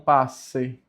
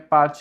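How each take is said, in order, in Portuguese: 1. O 'c' é pronunciado com som de 's'. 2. O 'c' é pronunciado com som de 'ch'. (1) "e não passe" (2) "o C com E tem som de tché"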